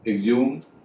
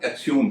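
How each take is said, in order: First: The word begins with an 'egz' sound. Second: The word begins with an 'eks' sound.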